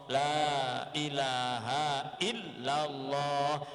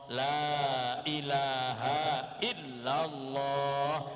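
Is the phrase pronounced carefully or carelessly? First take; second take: carefully; carefully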